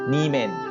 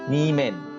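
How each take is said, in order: Both takes have the same delivery.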